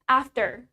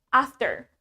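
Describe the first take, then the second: First: It is said in an American accent, clear r. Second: It is said in an American accent, clear r.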